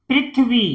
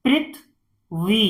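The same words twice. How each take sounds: First: Said in the usual way. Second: "Prithvi" as "prith", pause, "vi"; syllable by syllable. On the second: Shown as a demonstration. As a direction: split "Prithvi" in two. Teacher sounds out, then blends. ("पृथ्वी" को तोड़कर पढ़ना)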